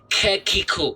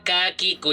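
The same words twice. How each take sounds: First: The k is released with a strong, long breath. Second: The k is released with a light, short breath. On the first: The speaker calls it wrong. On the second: The speaker calls it right.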